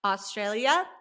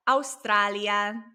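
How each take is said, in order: First: "Australia" with English "aw-STRAIL-ya" vowels; English pronunciation. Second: "Australia" as slow "ows-TRAH-lya"; Spanish pronunciation. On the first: Teacher comparing with Spanish, "Australia" in English sounds. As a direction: say "Australia" the American English way, stressed vowel as in "day". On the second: Teacher showing the Spanish version, slow "Australia" with open a. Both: Shown as a demonstration. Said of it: "it's almost the same".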